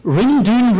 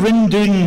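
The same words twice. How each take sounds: First: Calling out. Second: Loud repeated call, falling at the end. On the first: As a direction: shout it across the yard to the son. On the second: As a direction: call again to the son, letting it drop. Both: Acted. Farmer calls to his son.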